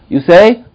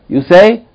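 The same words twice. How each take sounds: No difference in how they are said.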